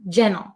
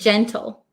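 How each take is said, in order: First: The T sound is dropped, said quickly. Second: The T sound is clearly pronounced. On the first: "when I say it quickly as an American English speaker, I often cut the T sound" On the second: "Or you could say"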